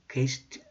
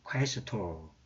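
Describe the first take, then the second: First: It is said in church Latin pronunciation. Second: It is said in classical Latin pronunciation. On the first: "교회 발음은" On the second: "고전 발음이"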